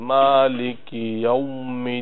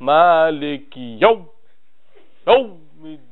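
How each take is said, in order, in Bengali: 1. অক্ষরটি মসৃণ ও নরমভাবে বলা হয়। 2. অক্ষরটি হঠাৎ ঝটকা দিয়ে বলা হয়। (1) "ওটা নরম করে" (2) "ঝটকা দেওয়া যাবে না এরকম বলা যাবে না"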